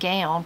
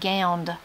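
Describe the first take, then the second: First: It ends without a d sound. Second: It ends with an added d sound.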